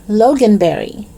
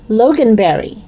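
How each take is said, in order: The two takes are said the same way.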